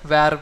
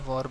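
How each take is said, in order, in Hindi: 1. यह स्वर 'air' वाले स्वर जैसा है। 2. यह स्वर 'or' वाले स्वर जैसा है। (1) "वैर बोलूँ मैं" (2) "वॉर बोल रहा हूँ"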